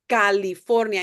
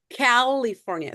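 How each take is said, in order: First: It is said with a Spanish pronunciation. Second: It is said with an English pronunciation. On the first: The speaker calls it right. "when we're doing español, so it's gonna sound California" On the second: The speaker calls it wrong. "instead of California"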